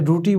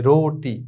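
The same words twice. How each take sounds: First: রুটি said as "roo-tee"; mistaken u vowel. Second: রোটি said as "roh-tee"; majhul o vowel. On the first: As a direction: put "oo" in the first syllable of রুটি. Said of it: "বললে কিন্তু ভুল হবে". (রুটি-তে ও-র বদলে উ উচ্চারণ) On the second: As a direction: hold the "oh" in রোটি. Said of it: "রুটি বললে কিন্তু ভুল হবে". (রোটি-তে ও-কার টেনে উচ্চারণ) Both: Shown as a demonstration.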